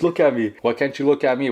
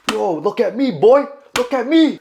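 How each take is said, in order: First: Insistent but controlled challenge; retold confrontation. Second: High-pitched, loud hammed-up confrontation; joking mock shout. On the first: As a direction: retell confronting someone firmly, without shouting. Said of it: "But I was like". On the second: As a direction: play-act yelling at a man to face you. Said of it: "No, kid, I didn't say that".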